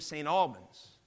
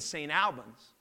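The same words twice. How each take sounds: First: The name is pronounced the local dialect way. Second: The name is pronounced the outside, non-local way. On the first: This is what the town was named. The speaker calls it right. "It was named St. Albans" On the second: This is not what the town was named. The speaker calls it wrong. "It wasn't named St. Albans"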